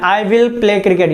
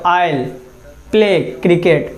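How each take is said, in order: First: "I will" is said as two full words. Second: "I will" is shortened to one syllable. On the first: "ये भी सही है" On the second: "short form में बोल के"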